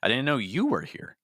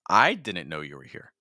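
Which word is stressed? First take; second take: you; I. First: The stress is on the word you. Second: The stress is on the word I. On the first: "now I'm stressing you" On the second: "Now I'm stressing I"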